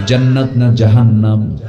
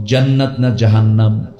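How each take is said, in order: Both takes have the same delivery.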